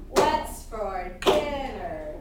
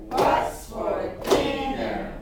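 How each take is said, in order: No difference in how they are said.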